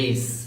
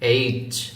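First: The letter name is said softly and loosely. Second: The letter name is said firmly and strongly. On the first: The speaker calls it wrong. "অনেকে বলে এইচ, এইচ যদি আপনি বলেন তাহলে আপনার correctly উচ্চারণ হলো না" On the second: The speaker calls it right. "শক্ত করে ধরবেন এইচ এইচ।"

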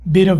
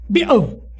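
First: The t is flapped like an r, American. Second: The t is dropped with a glottal stop, British.

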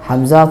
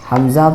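No difference in how they are said.

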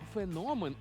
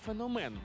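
First: The stress falls on the o vowel. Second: The stress falls on another vowel, not o. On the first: The speaker calls it right. "правильно феномен" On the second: The speaker calls it wrong. "а не феномен"

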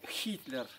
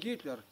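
First: The name begins with an H sound. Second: The name begins with a hard G sound. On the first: This is how it is said in the West. "а на Западе там Хитлер" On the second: This is how it is said here at home. "Мы говорим Гитлер"

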